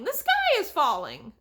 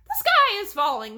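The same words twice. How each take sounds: First: Higher and louder, slightly easing off; panicked cry, a bit less. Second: Much higher and louder, in full panic; panicked cry. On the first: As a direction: cry it again, less shrill. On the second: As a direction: shriek it out in terror. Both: A narrator's reading. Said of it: "a chicken cried".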